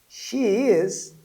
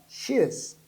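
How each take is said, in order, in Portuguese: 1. As palavras são ditas por completo, sem contração. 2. As palavras são contraídas em uma única sílaba.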